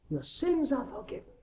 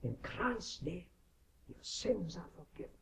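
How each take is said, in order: First: Raised, ringing "Your sins are forgiven"; priestly declaration. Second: Tender absolution. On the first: Minister declaring forgiveness to the confessing sinner, raised pronouncement. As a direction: pronounce it high, like a priest giving absolution. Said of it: "to declare to people on their confession". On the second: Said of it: "And the minister tells him". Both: Retold or imitated.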